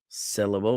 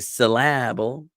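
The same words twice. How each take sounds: First: The stress is on the first syllable only. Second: The stress is on the middle syllable only. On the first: "with the emphasis on sit" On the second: "with the emphasis on la"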